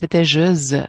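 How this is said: It is pronounced the French way. "En francés"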